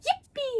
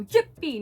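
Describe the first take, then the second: First: Very high game-character yippee; Yoshi-like cheer. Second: Loud yippee, moderately raised pitch; too-low cheer. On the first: Player overshooting the director's request, high Yoshi-like cheering. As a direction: squeal it like a cartoon video-game hero. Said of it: "too much like Yoshi or Mario". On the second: Player's retake that the director rejects, cheering too low. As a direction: cheer loudly without reaching the top notes. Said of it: "it's too low. Be higher". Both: Retold or imitated.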